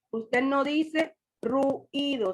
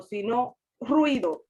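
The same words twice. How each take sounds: First: Ruido slowly with u-i apart; wrong way. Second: Ruido with ui joined; right way. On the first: Teacher showing the class the wrong ruido. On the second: Teacher giving the class the correct ruido. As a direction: say ruido in one smooth beat. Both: Shown as a demonstration.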